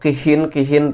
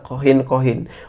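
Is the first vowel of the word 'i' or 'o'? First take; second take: i; o. First: The first vowel is an i sound. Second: The first vowel is an o sound.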